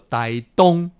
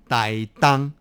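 First: The second syllable has a rounded o vowel. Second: The second syllable has an open a vowel. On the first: This pronunciation sounds odd to locals. The speaker calls it wrong. "如果我们把它念作台东，也蛮奇怪的" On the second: This is the usual everyday pronunciation. The speaker calls it right. "台东我们都读作台当"

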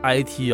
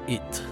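First: It is spelled out as two letters. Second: It is read as one short word. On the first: The speaker calls it right. "他把这个IT" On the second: The speaker calls it wrong. "就念成是it"

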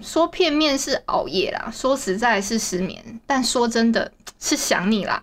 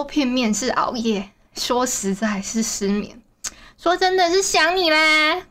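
First: It is said flatly, like reading a script. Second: It is said with more feeling and expression.

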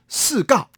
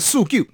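First: The second syllable sounds like gao. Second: The second syllable sounds like jiu. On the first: It sounds like the word for dog. The speaker calls it wrong. "不能叫做四告" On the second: It is the proper reading used in names. The speaker calls it right. "他叫素舅啊"

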